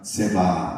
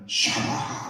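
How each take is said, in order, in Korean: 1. 첫 음절은 'se'로 발음해요. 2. 첫 음절은 'sha'로 발음해요. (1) "쉽게 하다 보니까 세바 이렇게 한다니까" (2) "원래대로 하면은 샤바 이렇게 되는데 어렵잖아요"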